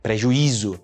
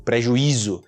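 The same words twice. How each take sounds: Both takes have the same delivery.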